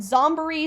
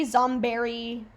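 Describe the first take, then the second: First: Zomboree said as zom-buh-REE; Zomboree pronunciation. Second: Zomberry said slowly like the word berry; Zomberry pronunciation. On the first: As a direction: say Zomboree with an "uh" in the middle. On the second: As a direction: stretch out Zomberry ending in berry. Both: Shown as a demonstration. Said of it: "how do you guys pronounce this island?".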